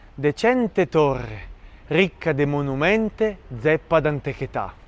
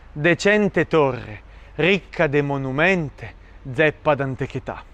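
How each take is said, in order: No difference in how they are said.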